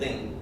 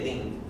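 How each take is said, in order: First: The word ends with an m sound. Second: The word ends with an ng sound. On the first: "I put an mm in there" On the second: "But I didn't say ling"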